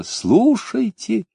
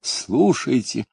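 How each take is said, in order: First: Calling out. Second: Softer, slow falling call. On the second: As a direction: let the second call sink down slowly. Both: A narrator's reading. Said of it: "крикнула в небо".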